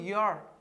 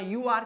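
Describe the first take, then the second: First: The words are contracted into one syllable 'you're'. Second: Both words are said fully, two syllables. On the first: The speaker calls it right. "बोलो योर" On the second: The speaker calls it wrong. "यू आर की जगह"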